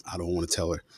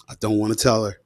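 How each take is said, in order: First: Much softer, dreading thought; dreading whisper-ish. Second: Said in the usual way. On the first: Retold or imitated. Boy dreading telling his mom, much softer and worried. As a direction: say it under your breath, afraid.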